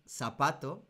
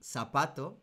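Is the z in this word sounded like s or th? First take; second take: s; s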